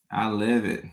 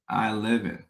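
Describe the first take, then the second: No difference in how they are said.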